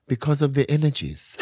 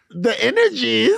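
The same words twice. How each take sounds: First: Imitated German accent, amused. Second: Loud, high, drawn-out disbelief; incredulous. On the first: Retelling the hookup's explanation to the co-host, mock German accent. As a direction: quote him in a German accent. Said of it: "in his German accent". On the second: Retold or imitated. Retelling own reaction to the hookup's excuse, loud incredulous echo. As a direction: throw it back as a stunned, high question. Mocking his answer in disbelief.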